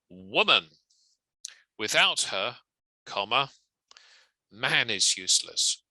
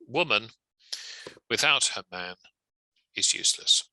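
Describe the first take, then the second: First: A strong pause comes right after her. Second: Short pauses come after woman and after man. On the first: "which needs a stronger pause here" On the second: "a couple of parenthetical commas"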